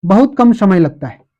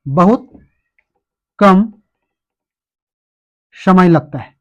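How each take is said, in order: First: Said in the usual way. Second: "बहुत", "कम" and "समय लगता है" spoken as separate chunks with long pauses; slow dictation. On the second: Shown as a demonstration. Teacher dictating a definition to students, slow and spaced. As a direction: spell it out slowly so students can write. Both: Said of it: "परिभाषा भी लिख लीजिए".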